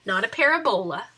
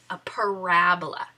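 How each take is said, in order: First: Parabola stressed on the first syllable, PARabola; deliberately wrong stress, PARabola. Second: Parabola stressed on the second syllable, paRAbola; correct stress. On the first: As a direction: say parabola as PAIR-a-bola, hitting the front. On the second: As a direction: say parabola as pa-RAB-ola, the right way. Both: Shown as a demonstration. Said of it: "putting the emphasis on the wrong syllable".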